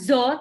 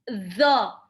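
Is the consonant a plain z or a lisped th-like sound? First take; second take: plain z; th-like. First: The consonant is a plain z sound. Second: The consonant is a lisped th-like sound. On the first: The speaker calls it wrong. "bukan zo" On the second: The speaker calls it right. "tapi zo. Ujung lidahnya seperti mau digigit"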